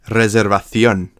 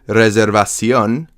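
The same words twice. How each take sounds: First: The middle consonant is a TH sound. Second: The middle consonant is an S sound. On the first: "you might hear something like reservación" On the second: "it might change the word reservación"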